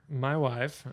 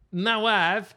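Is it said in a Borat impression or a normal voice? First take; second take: normal voice; Borat impression. First: It is said in his normal voice. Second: It is said in a Borat impression.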